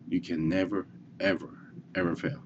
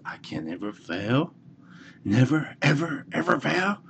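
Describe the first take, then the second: First: Said in the usual way. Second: Put-on high, proud child's voice rising on fail; a boy swearing he'll never fail; kid's vow. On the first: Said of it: "the first thing that I want you to have in mind". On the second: Little boy tells himself he can never fail, high and proud. Little kid declares new belief.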